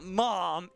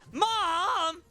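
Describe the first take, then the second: First: It is said in a plain, ordinary voice. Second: It is a whiny shout imitating Smolder.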